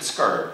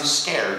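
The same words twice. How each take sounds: First: The word is said with heavy, intense emphasis. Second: The word is said in a plain, mild way. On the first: An extreme level of fear. "I said scared. This is next level" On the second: An ordinary level of fear. "I did not say scared"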